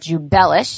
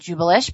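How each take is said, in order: First: The stress is on the 'bel' syllable. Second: The stress is not on the 'bel' syllable. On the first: The speaker calls it right. "now I know to call it Jubelish, so emphasis on the bell" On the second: The speaker calls it wrong. "I was pronouncing it wrong. I was calling it Jubelish"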